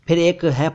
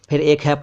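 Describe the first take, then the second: The two takes are said the same way.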